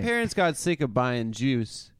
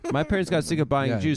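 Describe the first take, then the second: First: It is spoken in a southern American accent. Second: It is spoken in the speaker's usual accent.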